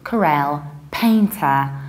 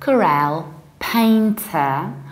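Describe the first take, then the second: Both takes have the same delivery.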